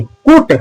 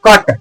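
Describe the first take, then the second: First: कूट with a high oo vowel; wrong "cut" pronunciation. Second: कट with a short uh vowel; correct "cut" pronunciation. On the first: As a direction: misread कूट, pitched up, long oo. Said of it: "बिल्कुल गलत". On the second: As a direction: say कट short, no oo sound. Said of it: "इसको पढ़ा जाता है". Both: Shown as a demonstration.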